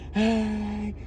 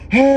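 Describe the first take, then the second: First: The shout is weak and fades away. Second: The shout is loud and energetic. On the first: The speaker calls it wrong. "don't just you know fade away like hey" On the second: The speaker calls it right. "it must be pretty energetic kind of a sound"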